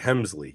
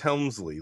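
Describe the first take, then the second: First: The name is said without an L sound. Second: The name is said with an L sound. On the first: The speaker calls it right. "You're right. Hemsley" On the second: The speaker calls it wrong. "No, I think it's Helmsley"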